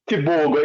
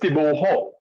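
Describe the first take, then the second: First: The middle consonant is a hard G sound. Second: The middle consonant is a soft H sound. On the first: The speaker calls it wrong. "you still saying Tibogo" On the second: The speaker calls it right. "the pronunciation of Tibogo is Tiboho"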